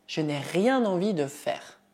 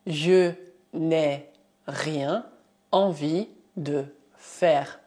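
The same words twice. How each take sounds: First: Said in the usual way. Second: "je n'ai rien envie de faire" in slow chunks; teacher dictating slowly; slow dictation. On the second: Shown as a demonstration.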